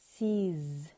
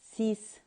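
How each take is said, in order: First: The word ends with a buzzing z sound. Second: The word ends with a hissing s sound. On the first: The speaker calls it right. "we pronounce it as sees" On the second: The speaker calls it wrong. "not cease"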